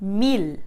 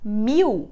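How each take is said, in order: First: The final L is pronounced as a clear L. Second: The final L is pronounced like a U. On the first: This is how it sounds in Spanish. "Em espanhol, a gente não vai trocar esse L por U nunca" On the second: This is how it sounds in Portuguese. "a gente troca ele por U"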